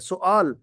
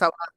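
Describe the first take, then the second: First: The first vowel is 'u' followed by 'aa'. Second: The first vowel is 'a' followed by 'waa'. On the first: This is how it is said in Arabic. "अरबी में सुआल" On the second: This is how it is said in Urdu. "Urdu में कहते हैं सवाल"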